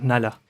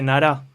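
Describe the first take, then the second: First: The name is said with an L sound. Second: The name is said with an R sound.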